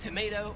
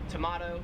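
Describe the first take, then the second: First: The word is said with an American pronunciation. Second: The word is said with an Australian pronunciation. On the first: "Eight is tomato" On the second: "or as it said in Australia"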